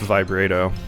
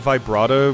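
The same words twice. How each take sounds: First: The middle syllable sounds like the start of vibrate. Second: The middle syllable rhymes with the start of bravo. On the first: It comes from the things vibrating. "I think it's just vibrato. Because they're vibrating" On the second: It is borrowed from the musical term. "what's the stuff with like music and stuff where it's like pronounced like Brato, Bravo"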